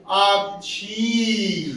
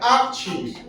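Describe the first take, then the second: First: Akshi drawn out very slowly, long final ee; slow, unhurried. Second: Akshi ending on a short i; short vowel. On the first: Teacher telling class to take it easy, drawn-out word. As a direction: pause on Akshi and stretch the ending. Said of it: "रुक के बोले आराम से". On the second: Teacher demonstrating the short vowel sign, short ending. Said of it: "ये छोटी की मात्रा है". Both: Shown as a demonstration.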